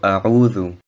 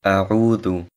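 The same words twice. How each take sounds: Both takes have the same delivery.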